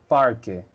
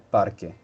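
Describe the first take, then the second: First: The r sounds like an English r. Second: The r sounds like a Spanish r. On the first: The speaker calls it wrong. "dijiste parque" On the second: The speaker calls it right. "en vez de parque"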